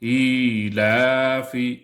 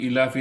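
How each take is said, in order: First: The first vowel is drawn out long. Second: The first vowel is short and quick. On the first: The speaker calls it right. "खड़ा ज़ेर एक अलिफ के बराबर खींचकर पढ़ेंगे" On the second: The speaker calls it wrong. "यहाँ पे इलाफी इलाफी नहीं पढ़ेंगे"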